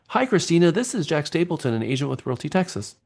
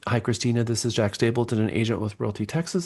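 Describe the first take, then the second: First: It is read in an excited tone. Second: It is read in a plain tone.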